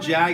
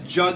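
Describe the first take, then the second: First: The vowel sounds like the one in bag. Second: The vowel sounds like the one in hug. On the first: The speaker calls it wrong. "So it's not Jag" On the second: The speaker calls it right. "it's Jug like hug"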